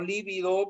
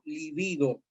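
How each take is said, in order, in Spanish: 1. La sílaba tónica es la primera. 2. La sílaba tónica es la segunda. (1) "no líbido, líbido significa moratado, es con V, es una esdrújula" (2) "es una palabra grave"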